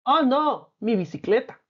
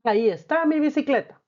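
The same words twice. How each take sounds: First: Mock dismay over "mi bicicleta", sinking at the end; dismayed exclamation. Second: "mi bicicleta" called out higher in relief; alegría demostrativa; joyful exclamation. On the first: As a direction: act out losing your bike for the class. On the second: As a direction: show the class happy relief at finding it. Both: Shown as a demonstration. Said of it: "¿Te fijas cómo hemos usado los signos?".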